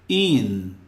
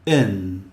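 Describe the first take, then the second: First: The vowel sounds like a tense 'ee' sound. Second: The vowel sounds close to an 'eh' sound. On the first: The speaker calls it wrong. "e não in" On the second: The speaker calls it right. "O som da letra I às vezes é E"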